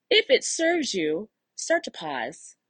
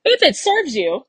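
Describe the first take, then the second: First: Calm coach easing a client into a pause. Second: Said in the usual way. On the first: Shown as a demonstration. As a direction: guide the client gently and slowly. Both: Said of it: "put my coach hat back on".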